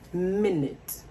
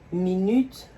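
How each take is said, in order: First: It uses the English pronunciation of minute. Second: It uses the French pronunciation of minute. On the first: "en anglais c'est minute" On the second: "la prononciation change"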